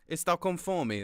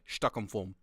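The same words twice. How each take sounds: First: It is said with a Brazilian Portuguese accent. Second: It is said with a European Portuguese accent. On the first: "if you say I'm hungry in Brazil, ... That's how you would say it" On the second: "Portugal, same words, but you say it as like"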